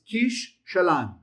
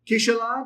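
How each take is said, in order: First: The sh sound is held long, doubled. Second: The sh sound is said once, short. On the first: The speaker calls it right. "it's kish shalan. Do you hear the difference?" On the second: The speaker calls it wrong. "It's not kishalan"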